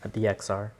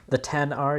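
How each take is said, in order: First: The X is spoken as the letter name. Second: The X is spoken as the number ten. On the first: The speaker calls it wrong. "you don't say X" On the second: The speaker calls it right. "You pronounce it ten"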